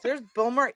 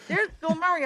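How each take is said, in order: First: Said in the usual way. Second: Higher, awed repeat of the name; excited. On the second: Retold or imitated. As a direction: hit it like a star sighting. Ricky, you're not ready for this.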